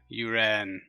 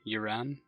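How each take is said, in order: First: The stress is on the second syllable. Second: The stress is on the first syllable. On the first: The speaker calls it right. "Second syllable stress. Got it" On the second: The speaker calls it wrong. "Am I pronouncing it correctly?"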